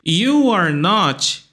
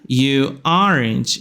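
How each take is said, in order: First: The phrase is said as three separate words. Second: Are and not are merged into one word.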